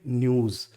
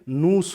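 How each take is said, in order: First: It starts with 'ny' and ends in z. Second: It starts with plain n and ends in s. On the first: The speaker calls it right. "ऐसे ही तो बोलते हैं न्यूज" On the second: The speaker calls it wrong. "नूस हो गया, जो कि गलत है"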